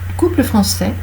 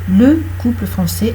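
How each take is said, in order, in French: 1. La voyelle de 'le' est complètement supprimée. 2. La voyelle de 'le' est clairement prononcée. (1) "Vous n'avez pas entendu le E" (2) "on prononce le E"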